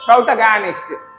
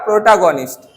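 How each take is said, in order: First: The word is said in a careful formal way. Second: The word is said in a casual everyday way. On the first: This is the pure pronunciation an expert uses. "एक फोनेटिशियन जो शुद्ध उच्चारण करने वाले हैं वो इसको बोलेंगे" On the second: This is how an ordinary person says it. "Normal इंसान इसको क्या बोलेगा"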